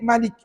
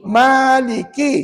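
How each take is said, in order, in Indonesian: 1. Vokal pertama dibaca pendek. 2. Vokal pertama dibaca panjang. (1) "kalau kita baca pendek Maliki" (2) "maka kena baca Maliki"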